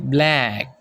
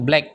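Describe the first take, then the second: First: The word is said in a British accent. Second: The word is said in an Indonesian accent.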